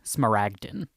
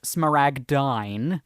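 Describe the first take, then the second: First: The last syllable sounds like 'din'. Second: The last syllable rhymes with 'dine'. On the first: The speaker calls it right. "it's more properly pronounced smaragdin" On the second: The speaker calls it wrong. "It can also be pronounced smaragdine"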